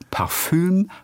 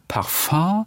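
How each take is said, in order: First: The word is pronounced the German way. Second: The word is pronounced the French way.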